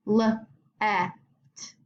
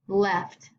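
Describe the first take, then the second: First: "left" with its sounds separated; left sounded out. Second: Said in the usual way. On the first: Shown as a demonstration. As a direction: pause between L and the short E of "left". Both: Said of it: "think if they make their long or short sound".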